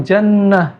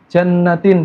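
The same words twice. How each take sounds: First: Jannah slow, short final a; correct jannah. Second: Jannatin with a stretched vowel; Jannatin, vowel drawn out; wrong lengthened. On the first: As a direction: say jannah evenly. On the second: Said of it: "Diganti jannatin". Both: Shown as a demonstration.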